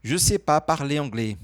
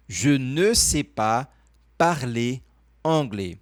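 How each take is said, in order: First: Connected colloquial French, "Je sais pas" in one flow; everyday French. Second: Slow formal French with a clearly sounded "ne". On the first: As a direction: run "Je sais pas" together, no "ne". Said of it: "a linguagem do dia a dia". (francês do dia a dia, "Je sais pas" emendado) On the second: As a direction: say "Je ne sais pas" word by word, keeping the "ne". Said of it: "Uma maneira mais formal". (francês formal, pausado, com o "ne") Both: Shown as a demonstration.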